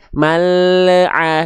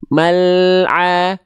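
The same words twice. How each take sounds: First: The L bounces with a short added vowel. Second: The L flows straight into the next sound. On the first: The speaker calls it wrong. "Nggak akan ada pantulan kecuali" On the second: The speaker calls it right. "Ketika le-nya turun, ainnya masuk"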